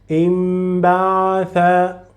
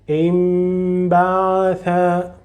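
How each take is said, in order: The two takes are said the same way.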